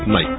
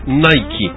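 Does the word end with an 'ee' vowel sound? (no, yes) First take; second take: no; yes. First: The word ends on the 'k' sound. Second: The word ends with an 'ee' vowel. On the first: This is how the British say the name. "اما ببريطانيا اسمها نايك فقط" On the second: This is how Americans say the name. "بالامريكي N-I-K-E بتصير I نايكي"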